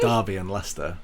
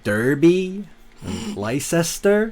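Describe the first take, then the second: First: It is said in a British way. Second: It is said in an American way.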